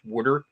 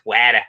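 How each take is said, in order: First: It is said in a Philadelphia accent. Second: It is said in a Boston accent. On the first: "Like in Philadelphia, it's water" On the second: "In Boston, it's wada"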